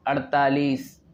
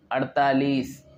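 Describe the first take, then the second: No difference in how they are said.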